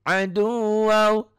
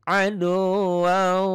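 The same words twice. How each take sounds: Both takes have the same delivery.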